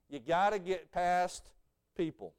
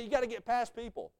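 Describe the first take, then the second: First: You gotta get past people drawn out slowly, with a pause before people; slow the repeat of gotta get past and let people land after a pause; slow stressed repeat. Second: Said in the usual way. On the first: Shown as a demonstration. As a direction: hammer the point home slowly. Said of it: "you gotta get past people (repeated)". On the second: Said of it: "You gotta get past people (repeated)".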